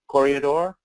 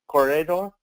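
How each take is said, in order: The two takes are said the same way.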